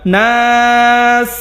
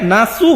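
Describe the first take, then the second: First: The word ends on the s consonant. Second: The word ends with a short u vowel. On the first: The speaker calls it right. "ওয়াকফ হওয়ার কারণে" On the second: The speaker calls it wrong. "এই যে এখানে নাসু হবে না"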